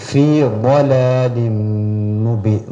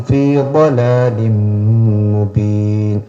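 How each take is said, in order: Both takes have the same delivery.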